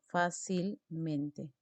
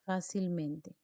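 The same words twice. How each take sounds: First: Fácilmente drawn out slowly, syllables apart; slow syllable demo. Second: Said in the usual way. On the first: Shown as a demonstration. Teacher slowly sounding out Fácilmente for students. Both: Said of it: "Última sílaba".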